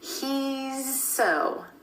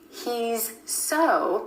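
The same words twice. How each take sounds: First: The Z sound flows directly into the S. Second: The Z and S sounds are separated.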